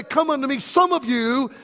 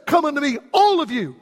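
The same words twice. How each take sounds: First: "some" picked out as the wrong word; stress on some. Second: "all" punched as the true word; stress on all. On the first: Preacher misquoting Jesus to his congregation, stress on "some". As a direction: lean on "some" to set up the contrast. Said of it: "It doesn't say". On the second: Preacher correcting the quote for his congregation, stress on "all". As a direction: hit "all" hard after a lighter lead-in. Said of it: "It says". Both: Shown as a demonstration.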